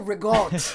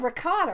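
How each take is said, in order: First: The word ends without its final vowel. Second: The word ends with its full final vowel.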